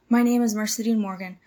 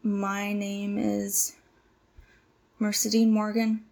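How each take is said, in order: First: It is said quickly, without hesitation. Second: It is said slowly, with hesitation.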